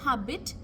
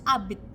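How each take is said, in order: First: The word starts with an h sound. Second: The word starts with a vowel, no h. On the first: The speaker calls it wrong. "Instead of habit" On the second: The speaker calls it right. "in French we don't pronounce the H"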